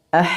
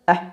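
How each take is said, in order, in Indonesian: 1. Nafas terus mengalir melewati bunyi itu. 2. Nafas terhenti setelah bunyi itu. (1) "tapi mengalir" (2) "tidak dibaca ah"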